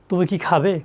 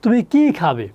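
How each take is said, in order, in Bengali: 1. 'ki' শব্দে কোনো stress নেই। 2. 'ki' শব্দটিতে জোরালো স্ট্রেস আছে। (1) "তা এটা কি ইয়েস নো নাকি ডাব্লিউ এস? Yes no." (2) "তখন কি প্রশ্ন করা হচ্ছে তুমি আসলে কি খাবে"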